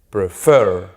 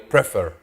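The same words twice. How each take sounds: First: The stress is on the last syllable. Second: The stress is on the first syllable. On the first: The speaker calls it right. "La mayor fuerza de voz, ¿dónde está? Al final" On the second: The speaker calls it wrong. "Yo no digo prefer"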